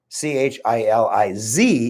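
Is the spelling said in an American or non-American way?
American. The letters are spelled in an American way.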